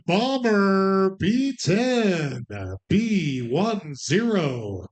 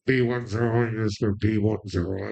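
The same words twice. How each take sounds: First: Drawn-out number call; slow bingo call. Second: Lower, mumbled club announcer call; stripper announcer voice. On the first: Acted. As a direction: stretch each number slowly. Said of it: "regular slow bingo call". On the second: Pretend. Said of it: "like a stripper announcer".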